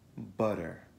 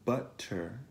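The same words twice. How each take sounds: First: The middle t sounds like a quick d. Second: The middle t sounds like a crisp t. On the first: The speaker calls it right. "va pronunciata come una D veloce" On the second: The speaker calls it wrong. "Non è butter"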